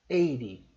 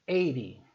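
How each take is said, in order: No difference in how they are said.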